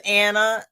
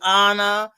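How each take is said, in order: First: The name is said the everyday American way. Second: The name is said the British or Hispanic way. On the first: "some weeks is Anna"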